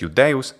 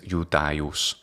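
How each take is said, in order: First: It is said the way the actor said it. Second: It is said in the classical Latin way. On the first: "he says Iudeus" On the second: "the classical pronunciation is Iudaius"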